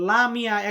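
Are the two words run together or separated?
run together. The two words are run together as one. The speaker calls it wrong. "Lamia একসাথে বলবেন না"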